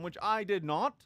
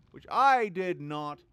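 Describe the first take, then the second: First: Said in the usual way. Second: "Which I did not" slow, loud, each word hit; stressed punchline. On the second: Shown as a demonstration. Streamer repeating his joke, slow and loud. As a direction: hammer "Which I did not" louder and slower. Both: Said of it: "with the right intonation".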